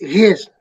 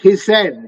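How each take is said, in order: First: The ending adds no extra syllable. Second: The ending is said as an extra syllable. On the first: The speaker calls it right. "the last E is not pronounced" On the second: The speaker calls it wrong. "not hissed"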